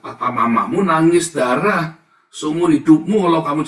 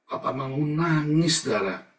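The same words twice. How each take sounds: First: Loud, impassioned cry; loud preaching take. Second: Said in the usual way. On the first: Acted. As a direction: shout it from the pulpit. First, loud take of the line. (seruan keras penuh emosi)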